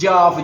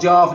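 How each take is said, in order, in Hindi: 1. यह शब्द अधूरा बोला गया है, जैसे छोटे बच्चे का बोलना। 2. यह शब्द अधूरा बोला गया है, जैसे छोटे बच्चे का बोलना।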